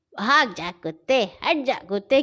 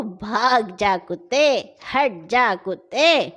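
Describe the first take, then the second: First: Said in the usual way. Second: Slow, firm shooing of dogs. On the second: Acted. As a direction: drive the dog off slowly and firmly. Old man shows the words.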